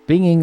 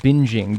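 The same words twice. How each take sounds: First: The word is said without the soft j sound. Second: The word is said with a soft j sound. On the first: The speaker calls it wrong. "I was fucked up there" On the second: The speaker calls it right. "you probably meant binging"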